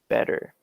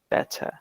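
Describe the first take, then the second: First: The middle t sounds like a d. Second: The middle t is a crisp t. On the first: "American way" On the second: "the T's remain and they don't become D's"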